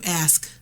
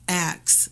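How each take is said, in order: First: The word ends in an sk sound. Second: The word ends in a ks sound. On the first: "instead of ask" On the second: "we say ax, like A X E"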